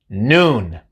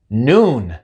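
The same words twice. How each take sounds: No difference in how they are said.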